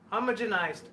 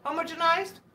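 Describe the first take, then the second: First: "Homogenized" as a statement, falling at the end; low-key "Homogenized", voice dropping to a full stop; trying the word. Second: "Homogenized" higher, rising into a question; unsure, higher-pitched "Homogenized?" as if checking it; questioning the word. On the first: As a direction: say "Homogenized" with a settled falling tune. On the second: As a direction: ask "Homogenized?" with the voice lifting at the end. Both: Shown as a demonstration. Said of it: "not everyone can say words properly".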